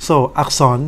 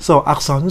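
No difference in how they are said.

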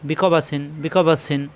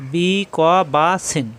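First: "বি ক বা সিন" joined up with short vowels; quick short vowels. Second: "বি ক বা সিন" stretched slowly, each syllable apart. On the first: Teacher showing vowels must be quick, joined-up short syllables in "বি ক বা সিন". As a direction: run "বি ক বা সিন" together without dragging. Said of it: "হরকতের উচ্চারণ তাড়াতাড়ি". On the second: Teacher spelling out the word for learners, slow syllable-by-syllable. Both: Shown as a demonstration.

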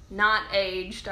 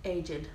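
First: "aged" as one syllable; wrong pronunciation. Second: "aged" as two syllables; her pronunciation. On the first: Showing viewers how not to say it, "aged" as one syllable. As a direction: say "aged" like "ayjd". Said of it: "you know how I like to say it". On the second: Showing viewers how she says it, "aged" as two syllables. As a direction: say "aged" as "ay-jed". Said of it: "I like to say". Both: Shown as a demonstration.

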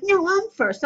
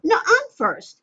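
First: Put-on high, playful child protest; child insisting. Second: Put-on high, louder childish insistence; like a five-year-old. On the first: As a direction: insist like a small kid. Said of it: "And they're like". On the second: Shown as a demonstration. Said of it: "I'm like a five-year-old".

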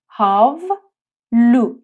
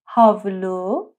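First: هاولو stretched very slowly, syllable by syllable; slow syllable demo. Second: Said in the usual way. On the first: Shown as a demonstration. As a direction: drag out هاولو slowly for learners. (هاولو آهسته و کشیده) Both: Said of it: "یعنی حوله".

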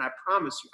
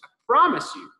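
First: Said in the usual way. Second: Repeated higher and louder, with a punch on promise; emphatic promise. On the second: Real, not acted. Promising the children God will hear them, emphatic and loud. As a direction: lean hard into the second promise.

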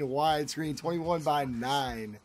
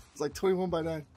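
First: Slow, lower, oddly stretched "twenty-one by nine"; said weird. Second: Said in the usual way. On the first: Real, not acted. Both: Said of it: "Yes, I said that weird".

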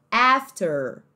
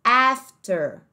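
First: After with a strong R at the end; American after, ending in the R. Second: After in a British accent, R dropped, afta. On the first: Teacher copies the American after for students. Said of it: "ele pega o R bem forte aqui". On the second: Teacher shows the British after to students. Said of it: "mais no sotaque British". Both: Shown as a demonstration.

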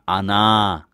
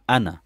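First: "Ana" with the first a stretched long, the alif sounded; wrong pronunciation. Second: "Ana" with a short first a, the alif left silent; correct pronunciation. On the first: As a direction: say "Ana" the wrong way, dragging out the opening a. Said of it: "Je gaat dus niet zeggen". (foute uitspraak: "Ana" met lang uitgerekte eerste a) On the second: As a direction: say "Ana" the right way, short and clipped at the start. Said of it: "Je gaat zeggen". (juiste uitspraak: "Ana" met korte a, alif niet uitgesproken) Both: Shown as a demonstration.

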